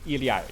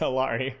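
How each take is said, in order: First: The name is said with a native Quechua pronunciation. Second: The name is said with an American English pronunciation. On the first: "but it's technically Iliari"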